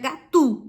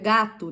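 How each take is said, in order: First: The stress is on the last syllable. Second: The stress is on the first syllable. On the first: The speaker calls it wrong. "o U no final ele é tônico, então seria gatu" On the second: The speaker calls it right. "é gato"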